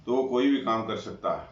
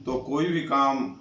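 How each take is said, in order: First: Said in the usual way. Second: Slow, with "भी" leaned on; drawn-out "तो कोई भी काम", weight on "भी"; stress on भी. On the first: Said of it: "same phrase repeated". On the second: Shown as a demonstration. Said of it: "emphasis on kinda moral point". ("भी" पर ज़ोर देकर धीरे-धीरे)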